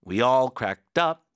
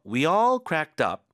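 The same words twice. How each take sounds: First: Up punched louder with a rise, said slowly; stress on up. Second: All stretched and louder, said slowly; stress on all. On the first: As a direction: land hard on up. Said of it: "up에도 힘 주고". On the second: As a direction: hit all and hold it, slowly. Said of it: "all이 나오면 여기 힘을 주면서 끌어주세요". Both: Shown as a demonstration.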